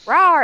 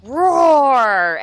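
First: Monster roar. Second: Big booming monster roar; huge fiery dragon roar. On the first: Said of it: "the power's flickering". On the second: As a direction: roar it out like a giant beast. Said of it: "Sully comes on". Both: Retold or imitated.

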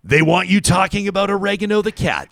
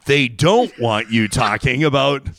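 First: High-pitched playful accusation; hammed-up suspicion, high voice; mock conspiracy rant. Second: "don't" leaned on, slowly; slow down to expose the plot, hitting "don't"; deliberate, weighty stress on "don't"; mock conspiracy reveal. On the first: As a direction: pitch it high like an exposé of a silly plot. Mock conspiracy rant, contrasted wants. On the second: Contrast to line before, slowed.

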